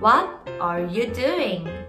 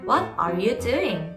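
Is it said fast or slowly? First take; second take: slowly; fast. First: It is said at a slow, careful pace. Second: It is said quickly.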